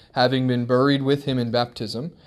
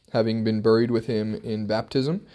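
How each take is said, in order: No difference in how they are said.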